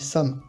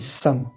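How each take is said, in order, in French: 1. Le son initial s est doux et relâché. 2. Le son initial s est tendu et appuyé. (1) "Si j'ai juste un S normal, je dis sam" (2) "Vous entendez bien que j'appuie sur le S"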